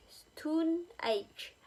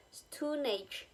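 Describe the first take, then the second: First: "stone" pitched high, "age" falling; stress on stone. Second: "stone" higher and stronger than "age"; stress on stone. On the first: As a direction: hit "stone", drop "age". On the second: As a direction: lean on "stone", let "age" drop. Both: Shown as a demonstration. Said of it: "The first element is more heavily stressed".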